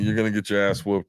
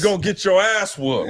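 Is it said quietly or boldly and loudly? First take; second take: quietly; boldly. First: It is slipped in quietly and casually. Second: It is said boldly and loudly.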